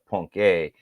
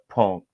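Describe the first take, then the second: First: The name is said with an extra final syllable. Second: The name is said as one syllable. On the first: This is how other people say it. "They call it Punk A" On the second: This is the speaker's own way of saying it. "I call it Punk"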